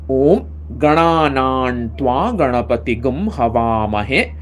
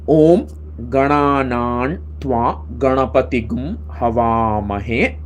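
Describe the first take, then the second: First: The words are read at a faster pace. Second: The words are read at a slower pace.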